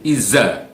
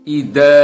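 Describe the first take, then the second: First: The consonant is a plain 'z' sound. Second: The consonant is a 'th' sound with tongue showing. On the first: The speaker calls it wrong. "itu bukan huruf dal, itu adalah huruf zai" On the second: The speaker calls it right. "harus ada ujung lidah kita yang keluar di antara uh, sela-sela gigi seri"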